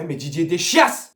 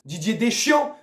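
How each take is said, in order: First: "Deschias" said with a final s, "de-SHYASS"; deliberate wrong name. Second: Said in the usual way. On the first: Pretend. Fan mocking the coach, mangling "Deschias". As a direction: mangle "Deschias" on purpose with a sounded s. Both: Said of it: "Didier tout ce que tu veux".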